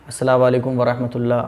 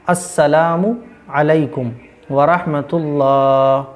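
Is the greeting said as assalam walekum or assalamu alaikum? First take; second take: assalam walekum; assalamu alaikum. First: The final u is dropped and runs into walekum. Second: The final u is kept before a separate alaikum. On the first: The speaker calls it wrong. "अस्सलाम वालेकुम नहीं करना है" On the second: The speaker calls it right. "अस्सलामु अलैकुम, ठीक है ना?"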